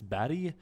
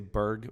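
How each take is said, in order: First: The word is said with a Swedish pronunciation. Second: The word is said with an English pronunciation. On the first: "otherwise in Swedish it's Barry" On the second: "I say Berg when I say it in English"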